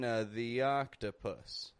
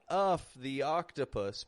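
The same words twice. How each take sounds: First: The word 'of' is reduced to a weak vowel. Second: The word 'of' is said in full. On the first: The speaker calls it right. "I'm using a schwa" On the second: The speaker calls it wrong.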